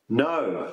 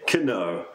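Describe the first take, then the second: First: The word starts without a K sound. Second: The word starts with a K sound. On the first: The speaker calls it right. "it is simply a silent K" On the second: The speaker calls it wrong. "many times a beginner will say"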